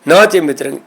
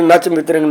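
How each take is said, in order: First: The first part is read as two words, 'naa cha'. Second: The first part is read as one word, 'nach'. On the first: The speaker calls it right. "ਨੱਚ ਨਹੀਂ ਹੈ ਇਹ, ਨਾ ਚ" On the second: The speaker calls it wrong. "ਇਸ ਤਰ੍ਹਾਂ ਕਈ ਪੜ੍ਹਦੇ ... ਇਹ ਗਲਤ ਪਾਠ ਹੈ"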